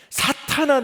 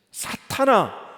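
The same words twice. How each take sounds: First: "사탄아" shouted much higher and louder; stern rebuke. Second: Said in the usual way. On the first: Acted. Jesus rebuking Peter, a sharp high shout. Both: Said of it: "주님이 베드로에게 이렇게 말씀하시죠".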